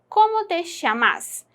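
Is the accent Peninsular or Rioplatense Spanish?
Rioplatense. It has a Rioplatense accent with a 'sh' sound.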